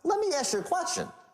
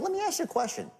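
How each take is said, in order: First: It sounds pushy and aggressive. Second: It sounds relaxed and disarming.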